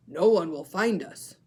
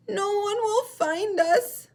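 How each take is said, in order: First: Louder, tearful seal pup voice at usual pitch; a lost seal pup starting to cry; crying Baby Seal. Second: Very high, loud, slow squeak by mistake; the penguin voice put on the seal by error; wrong voice. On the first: Teacher redoing Baby Seal, tearful. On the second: Teacher's mistaken high voice for Baby Seal. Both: Shown as a demonstration. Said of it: "I did the voice wrong".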